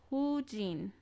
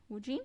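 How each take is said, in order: First: Said in the usual way. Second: "Woo Jin?" with a rising doubtful tune; unsure question. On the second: Shown as a demonstration. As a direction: ask "Woo Jin?" as an uncertain check. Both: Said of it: "We'll go with that".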